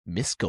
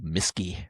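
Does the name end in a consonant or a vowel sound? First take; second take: consonant; vowel. First: The name ends on a k sound. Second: The name ends with an added ee sound.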